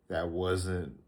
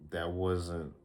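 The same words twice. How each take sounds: The two takes are said the same way.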